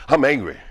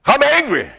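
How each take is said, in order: First: Said in the usual way. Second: Worked-up anger. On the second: Retold or imitated. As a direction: build "I'm angry" into a heated outburst.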